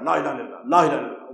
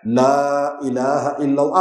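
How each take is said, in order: First: لا الہ الا اللہ mumbled fast and low; quiet mock mumble; mocking a rushed recitation. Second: لا الہ الا اللہ drawn out and clear; devout, deliberate chant; slow clear recitation. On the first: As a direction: imitate a careless mumbled chant. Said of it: "وہ بھی ایسے پڑھ". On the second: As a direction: say every syllable slowly. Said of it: "کچھ پتہ چلے". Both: Shown as a demonstration.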